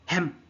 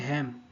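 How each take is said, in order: First: The vowel is said sharply, with extra force. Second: The vowel is said plainly, without extra force.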